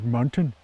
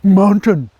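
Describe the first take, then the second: First: It is said in a doddering, senile voice. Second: It is said as a threatening display. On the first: It makes people leave you alone. "you want to be more the senile guy" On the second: It warns people off. "it's almost like the Cobra move"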